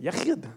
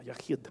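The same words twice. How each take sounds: First: Yachid with a throaty Israeli ch; Israeli accent. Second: Said in the usual way. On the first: Shown as a demonstration. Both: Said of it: "With your best Israeli accent".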